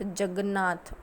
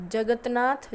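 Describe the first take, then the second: First: जगन्नाथ with a doubled न्न, falling; जगन्नाथ said correctly; correct pronunciation. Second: जगन्नाथ as "जगत्नाथ", rising; जगन्नाथ as the wrong example, lifted; wrong pronunciation. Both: Shown as a demonstration. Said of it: "अशुद्ध उच्चारण से होने वाली अशुद्धियाँ".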